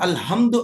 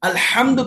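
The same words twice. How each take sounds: First: The h sound is a soft, plain breath. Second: The h sound is harsh, from the throat. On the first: All weaknesses belong to God. The speaker calls it wrong. "అది హాని హా అని పలికామనుకోండి" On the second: All praise belongs to God. The speaker calls it right. "అల్హమ్దు కాకుండా"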